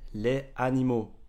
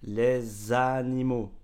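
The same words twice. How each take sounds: First: No z sound links les to animaux. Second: A z sound links les to animaux. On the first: The speaker calls it wrong. "Si je ne fais pas de liaison" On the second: The speaker calls it right. "on fait la liaison"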